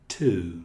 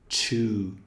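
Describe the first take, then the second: First: The word starts with a crisp t sound. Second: The word starts with a hissing ch sound. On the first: The speaker calls it right. "é uma fricção" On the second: The speaker calls it wrong. "Não é então um som chiado"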